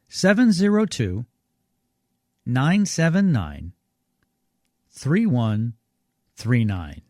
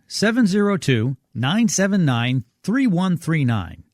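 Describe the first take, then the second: First: The number is read at a slower pace. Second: The number is read at a faster pace.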